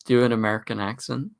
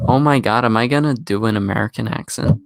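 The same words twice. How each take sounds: First: Said in the usual way. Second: Hammed-up Californian American accent. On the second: Shown as a demonstration. British streamer obliges the chat with a mock American accent. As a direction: put on an exaggerated California voice. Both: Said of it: "That's the best American accent".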